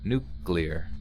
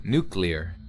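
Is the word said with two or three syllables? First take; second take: two; two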